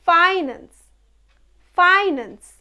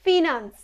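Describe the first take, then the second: First: Finance said FAI-nans, like "fine"; correct pronunciation. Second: ফিনান্স said fee-naans; common mispronunciation. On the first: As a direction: say finance with a long i first. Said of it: "It's not finance, it's". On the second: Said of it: "It's not finance". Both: Shown as a demonstration.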